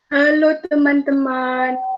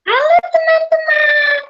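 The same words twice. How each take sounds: First: The voice is heavy and deep. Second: The voice is thin and shrill.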